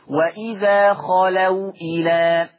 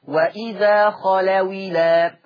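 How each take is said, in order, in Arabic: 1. الواو تبقى ساكنة، والهمزة تُنطق. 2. الواو تأخذ كسرة، والهمزة تُحذف. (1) "شوف الواو ساكنه محتفظه بالسكون بتاعها" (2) "لو انا قرأتها بالنقل اقول ايه؟"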